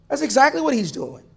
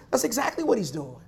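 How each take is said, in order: First: EXACTLY pitched high, at full voice; emphatic repeat. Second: Soft, lowered-volume answer; hushed affirmation. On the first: Preacher repeats his answer to the congregation, emphatic. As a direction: punch "exactly" high, then fall away. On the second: Preacher answers his brothers and sisters, hushed. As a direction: drop the volume to confide the answer. Answers own question, then repeats it. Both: Real, not acted.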